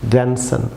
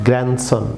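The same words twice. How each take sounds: The two takes are said the same way.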